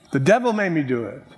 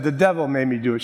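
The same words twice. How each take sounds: First: Flip Wilson. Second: Said in the usual way. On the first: Retold or imitated. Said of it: "that great theologian, Flip Wilson". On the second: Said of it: "She said".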